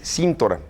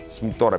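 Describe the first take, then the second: First: The stress is on the first syllable. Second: The stress is on the second syllable. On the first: The speaker calls it right. "la pronunciación correcta es Cintora" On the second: The speaker calls it wrong. "no tiene acento aquí"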